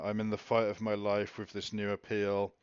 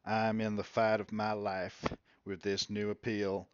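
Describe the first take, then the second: First: It is read in the speaker's own normal voice. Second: It is read in an imitated, put-on voice.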